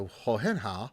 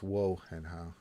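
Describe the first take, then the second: First: The first word begins with an H sound. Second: The first word begins with a W sound. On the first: The speaker calls it wrong. "I said ho at the beginning" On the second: The speaker calls it right. "It's wo hen how"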